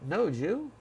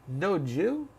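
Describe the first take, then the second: The two takes are said the same way.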